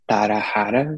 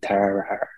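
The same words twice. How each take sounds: First: The middle consonant sounds like an H. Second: The middle consonant sounds like an English R. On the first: "in Portuguese it would be Tarahara because the R it has an H sound" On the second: "but in English it'd be Tarahara"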